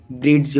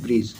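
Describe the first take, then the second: First: Bridge with the D sounded in "ब्रिज"; common mispronunciation. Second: "ब्रिज" with no d before the j; silent D. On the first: Teacher showing how many people read the word, D sounded in "ब्रिज". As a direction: say "ब्रिज" with an audible d before the j. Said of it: "बहुत व्यक्ति पढ़ेंगे". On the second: Teacher giving the real pronunciation, silent D in "ब्रिज". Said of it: "इसमें डी जो है ना वो silent". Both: Shown as a demonstration.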